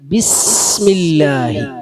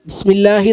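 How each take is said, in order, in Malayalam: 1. "s" ശബ്ദം കുറച്ചു നേരം പിടിച്ചു നിർത്തുന്നു. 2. "s" ശബ്ദം ചുരുക്കി വിടുന്നു. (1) "ഒന്ന് കുറച്ചു നേരം പിടിച്ച് വിട" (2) "ബിസ്മില്ലാഹി എന്ന് പറഞ്ഞതിനേക്കാളും നല്ല"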